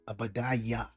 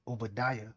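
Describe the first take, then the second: First: The name begins with an A sound. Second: The name begins with an O sound.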